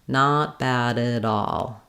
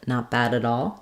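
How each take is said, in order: First: It is said slowly with the words drawn out. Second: It is said quickly with the words linked. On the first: "if I go slowly on the linked parts" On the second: "to have that speed"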